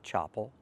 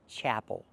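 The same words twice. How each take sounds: First: The first vowel is like the one in hot. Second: The first vowel is like the one in cat. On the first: The speaker calls it wrong. "not chapel. We cannot use the open ah sound like hot and stop" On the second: The speaker calls it right. "The word is pronounced chapel"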